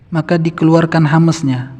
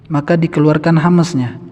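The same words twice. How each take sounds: Both takes have the same delivery.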